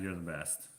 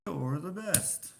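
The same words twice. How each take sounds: First: Said in the usual way. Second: High, drawn-out sing-song compliment; gushing praise. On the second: Pretend. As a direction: stretch it out with playful gushing. Composing a gushing line to add.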